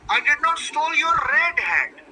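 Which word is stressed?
red. The stress is on "red".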